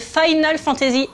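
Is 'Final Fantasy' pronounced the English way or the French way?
English. It is pronounced with English-style sounds. The speaker calls it right. "je parle de Final Fantasy"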